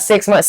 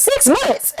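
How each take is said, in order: First: Said in the usual way. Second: Very high, squeaked incredulous question; shocked disbelief. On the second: Retold or imitated. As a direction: echo it in comic horror. Her shocked echo of therapist's estimate.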